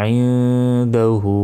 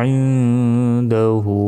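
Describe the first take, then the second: The two takes are said the same way.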